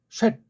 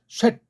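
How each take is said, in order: No difference in how they are said.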